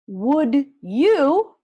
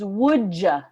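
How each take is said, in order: First: The word 'you' is said in full. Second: The word 'you' is reduced to 'ya'. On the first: "Would you becomes" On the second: "becomes would ya"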